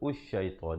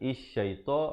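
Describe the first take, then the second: First: The word begins with a u vowel. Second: The word begins with an i vowel. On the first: "ataupun usy-syaita" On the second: "bukan isy-syaita"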